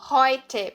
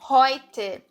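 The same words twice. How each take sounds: The two takes are said the same way.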